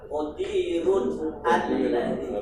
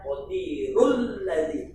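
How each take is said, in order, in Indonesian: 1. Huruf n tetap dibaca, dengan jeda hamzah sebelum alladzi. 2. Kedua kata tersambung dengan bunyi l, dan huruf n dihilangkan. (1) "Filhar qadirun alladzi. Kalau yang tidak belajar tajwid secara teori" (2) "Yang enggak pernah ngaji katanya qadirul ladzi"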